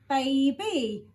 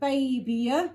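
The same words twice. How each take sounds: First: The word ends with an 'ee' sound. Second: The word ends with a 'y' sound. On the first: The speaker calls it right. "that sounds right" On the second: The speaker calls it wrong. "that doesn't sound right"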